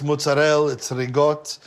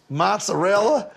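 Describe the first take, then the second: First: "mozzarella" cut to "mootsa-rell"; "rigot" for ricotta, last vowel gone; final vowel dropped. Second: "mozzarella" with every vowel, rising at the end; fully pronounced "mozzarella", pitched up; leaning into it. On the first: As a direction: say "mozzarella" Brooklyn Italian, without the final A. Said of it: "you don't say". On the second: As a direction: lean into a full "maht-sa-rella". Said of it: "they wanted me to lean into". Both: Shown as a demonstration.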